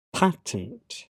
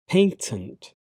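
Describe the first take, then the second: First: "patent" as PAT-ent, with the vowel of "cat"; American pronunciation. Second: "patent" as PAY-tent; British pronunciation. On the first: Teacher trying the American form, American pronunciation. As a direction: say "patent" with a short "a" in the first syllable. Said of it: "my American pronunciation". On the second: Teacher reading the British form of each pair, British pronunciation. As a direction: say "patent" with an "ay" in the first syllable. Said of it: "I'm a British English native speaker". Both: Shown as a demonstration.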